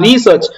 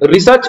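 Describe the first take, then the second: First: The first vowel is long, like 'ree'. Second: The first vowel is short, like 'ri'. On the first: This is the correct pronunciation. The speaker calls it right. "அது கரெக்டா வந்து pronounce பண்றது ரீசர்ச்னு சொல்லுவாங்க" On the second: This is how some people in India say it. The speaker calls it wrong. "சிலர் நம்ம இந்தியாவுல வந்து பாத்தீங்கன்னா ரிசர்ச் அப்படின்னு சொல்லுவாங்க"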